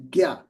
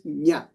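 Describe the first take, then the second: First: The syllable begins with a hard g sound. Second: The syllable begins with a nasal n sound. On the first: This is the northern Indian pronunciation. "in the northern part of India, where I come from, that letter is produ- pronounced as Gya" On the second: This is the original pronunciation. "But the actual pronunciation is Nya"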